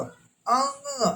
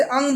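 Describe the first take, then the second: First: अंग drawn slowly with the nasal ंग ending held; slow nasal demo. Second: Said in the usual way. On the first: Shown as a demonstration. Teacher shows nasal अंग to students, slow. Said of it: "देखो अंग". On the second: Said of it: "जैसे अंग बोलते हो".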